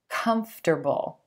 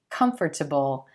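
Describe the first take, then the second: First: It is said with three syllables, first stressed. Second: It is said with four syllables, as spelled. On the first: The speaker calls it right. "we just make it three syllables" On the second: The speaker calls it wrong. "it looks like it should be comfortable"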